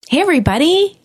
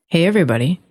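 First: The greeting sounds overdone and cheesy. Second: The greeting sounds more relaxed and natural.

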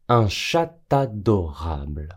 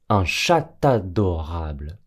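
Both takes have the same delivery.

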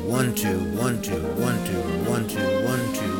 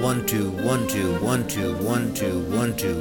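Both takes have the same delivery.

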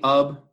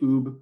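First: The vowel is short, as in 'up'. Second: The vowel is long, as in 'boot'. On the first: This is the speaker's own pronunciation. "I say Ub" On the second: Some other people use this pronunciation. "I know some people say Oob"

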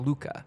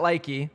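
First: The first vowel sounds like 'oo'. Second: The first vowel sounds like 'eye'. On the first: The speaker calls it right. "it's more pronounced L-O-O-K-A" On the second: The speaker calls it wrong. "Not likey"

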